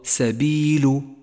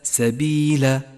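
First: The final consonant takes a u vowel. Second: The final consonant takes an a vowel. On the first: The speaker calls it right. "فاللام مضمومة وليست مفتوحة، تقرأ سبيل" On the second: The speaker calls it wrong. "وليس سبيل، فهو خطأ شائع"

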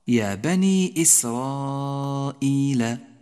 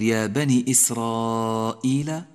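First: The final vowel of bani is held long. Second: The final vowel of bani is cut short. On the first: The speaker calls it right. "الياء يجب أن يظهر لفظها" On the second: The speaker calls it wrong. "لا تقل يا بني إسرائيل لأن بتر حرف المد خطأ شائع"

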